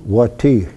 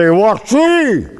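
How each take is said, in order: First: "Wati?" said low and falling; low inflection. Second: "Wati?" pitched high, then falling; high inflection. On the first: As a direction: drop the pitch on "Wati?". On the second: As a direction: lift "Wati?" well up and let it drop. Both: Shown as a demonstration. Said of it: "the inflection of my voice will tell her".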